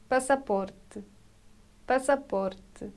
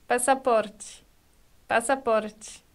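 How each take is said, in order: Both takes have the same delivery.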